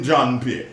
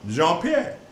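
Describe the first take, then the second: First: The first name sounds like the English name John. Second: The first name has the soft French 'zh' sound. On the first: The speaker calls it wrong. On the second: The speaker calls it right.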